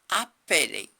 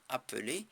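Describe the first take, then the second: First: The middle vowel is an open e. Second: The middle vowel is a weak schwa. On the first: The word is spelled with two Ls. "si je mets deux L, ... mais je veux dire appeler" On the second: The word is spelled with one L. "je ne vais plus dire appeler"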